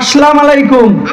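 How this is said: It is said with a northern regional pronunciation. The speaker calls it wrong. "আপনারা কেউ কেউ উত্তরাঞ্চলে সালাম দেন"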